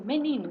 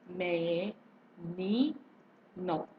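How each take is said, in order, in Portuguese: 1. A palavra é falada rápido, de uma vez só. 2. A palavra é falada com pausas entre as sílabas. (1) "eu falei ligeiro" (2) "quando eu falo pausadamente, soletrando"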